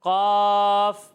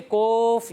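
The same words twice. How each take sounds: First: कॉफ very long, heavy but not rounded into O; heavy open Qaaf. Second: कोफ with the vowel rounded right into O; over-thickened Qaaf. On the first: Teacher models the correct reading, a long open कॉफ. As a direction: hold an open कॉफ, loud and steady. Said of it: "इतना ज़्यादा मोटा नहीं पढ़ना". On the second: Teacher warning pupils, an over-rounded wrong कोफ. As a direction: overdo the heaviness so it becomes कोफ. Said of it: "ये भी गलत है". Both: Shown as a demonstration.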